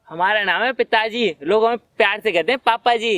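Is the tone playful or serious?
playful. It is said in a playful, unserious tone.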